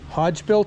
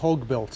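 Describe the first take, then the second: First: The name ends with a soft j sound. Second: The name ends with a hard g sound. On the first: "Hodge built or Hogue built?" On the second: "Hodge built or Hogue built?"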